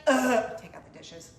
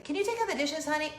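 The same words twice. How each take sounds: First: Groan, then grumble the chore back; teen grumble. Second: Higher, gently asking mom; sweet mom request. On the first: Daughter grumbling back at mom's chore request. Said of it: "teenage daughter does that". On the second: Mom asking her teen to do dishes. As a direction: ask sweetly like a patient mom. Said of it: "I say". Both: Retold or imitated.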